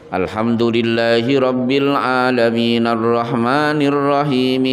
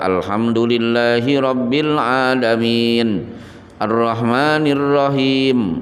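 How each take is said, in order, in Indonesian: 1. Kedua ayat dibaca tanpa jeda. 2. Ada jeda setelah setiap ayat. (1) "langsung disambung karena tidak ada dialog" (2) "jadi dipotong per ayat"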